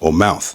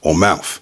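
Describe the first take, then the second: First: The word ends in a TH sound. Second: The word ends in an F sound.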